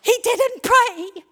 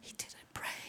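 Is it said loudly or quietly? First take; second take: loudly; quietly. First: It is shouted loudly. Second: It is said quietly.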